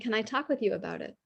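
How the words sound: It sounds calm and curious.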